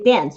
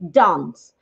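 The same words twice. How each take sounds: First: The word is said in an American accent. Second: The word is said in a British accent. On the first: "They say dance" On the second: "British people would probably say dance"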